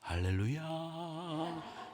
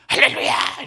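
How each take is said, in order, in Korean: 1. 부드럽고 다정한 목소리로 말해요. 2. 거칠고 센 목소리로 말해요. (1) "목소리가 부드러우니까 설교하실 때 할렐루야 이렇게 하시죠?" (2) "아니요. 할렐루야 이렇게 얘기해요"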